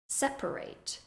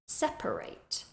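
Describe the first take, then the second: First: The word has three full syllables. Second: The same.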